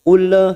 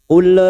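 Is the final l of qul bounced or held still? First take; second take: bounced; bounced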